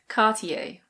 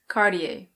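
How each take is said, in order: First: It is said with a British pronunciation. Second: It is said with an American pronunciation. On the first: "In British English, we say Cartier" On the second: "In American English, it's Cartier"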